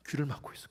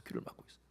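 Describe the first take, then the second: First: Said in the usual way. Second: Soft whispered repeat. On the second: Shown as a demonstration. Preacher whispering to congregation about blocked ears. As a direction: breathe it out in a whisper.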